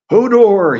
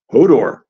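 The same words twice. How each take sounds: First: High, loud panicked roar. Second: Mildly frightened cry, a bit louder. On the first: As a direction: roar it over the thunder. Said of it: "he roared". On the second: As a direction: let a touch of fright into the name. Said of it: "Hodor sounded frightened". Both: A narrator's reading.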